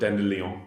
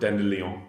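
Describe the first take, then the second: First: It is pronounced with a French-style sound. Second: The same.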